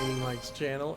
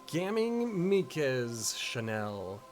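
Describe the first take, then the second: First: The name is pronounced in the ordinary way. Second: The name is pronounced in a deliberately distorted way.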